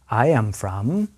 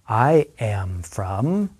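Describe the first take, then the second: First: The phrase is spoken at moderate speed. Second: The phrase is spoken very slowly. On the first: "listen and repeat at a slightly faster pace" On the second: "listen and repeat very slowly after me"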